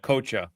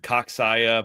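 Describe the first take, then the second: First: The name starts like the word coach. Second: The name is said with extra added syllables. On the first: The speaker calls it right. "like coach" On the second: The speaker calls it wrong. "I've heard way worse. I've heard Coxaya"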